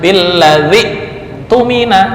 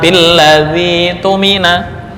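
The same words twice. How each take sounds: First: A glottal stop is heard before the vowel. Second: The glottal stop becomes a long vowel. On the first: "harusnya kan"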